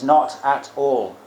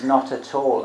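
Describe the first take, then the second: First: NOT AT ALL slow, each word weighted; emphatic. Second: Said in the usual way. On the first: Shown as a demonstration. Teacher explaining an emphatic Pali particle, slow and emphatic "not at all". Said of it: "Alang is like an emphatic particle".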